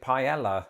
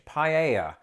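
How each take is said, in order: First: The double L is said like an L sound. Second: The double L is said like a Y sound. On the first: This is how people in Britain say it. The speaker calls it wrong. "Me and most people I knew pronounced it paella" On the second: This is how Americans say it. The speaker calls it right. "notice how I said it there, because that's not how I"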